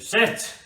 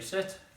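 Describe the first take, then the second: First: The word is said loudly. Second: The word is said at normal volume.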